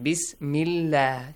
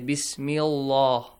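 First: The l sound is light and thin. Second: The l sound is heavy and full. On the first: The speaker calls it right. "Nice one" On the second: The speaker calls it wrong. "Do not say Bismillah"

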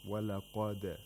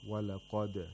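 First: The final d bounces off clearly with a release. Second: The same.

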